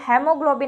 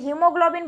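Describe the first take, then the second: First: The first syllable is said with the 'a' sound. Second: The first syllable is said without the 'a' sound. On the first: It helps to remember the spelling. "आप इसको बोल सकते हैं सिर्फ spelling याद रखने के लिए" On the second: This is the usual pronunciation. "हीमोग्लोबिन बोलते हैं तो ए जो है वो साइलेंट हो जाता है"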